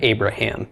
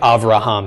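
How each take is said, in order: First: The second consonant is a b sound. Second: The second consonant is a v sound. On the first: "instead of Abraham" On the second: "Just like Avraham"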